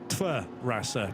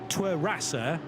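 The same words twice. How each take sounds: First: The consonant after the T is a V sound. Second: The consonant after the T is a W sound. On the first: "the W is, is pronounced with a V, so it's more like" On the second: "Now you can say"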